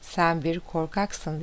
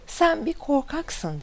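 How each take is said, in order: First: Understated drawn-out answer from the mountain; mountain's echo. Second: High, slow narrated yell; understated storyteller's shout of annoyance; mild angry shout. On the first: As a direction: repeat it slowly and evenly, as an echo answering. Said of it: "Dağdan gelen ses". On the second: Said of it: "diye tekrar bağırıyor". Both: A narrator's reading.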